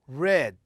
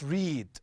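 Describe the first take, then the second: First: It has the past-tense pronunciation. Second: It has the present-tense pronunciation. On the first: The action happened in the past. The speaker calls it right. "the form in the past, I pronounce it read" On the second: The action happens in the present. The speaker calls it wrong. "not read"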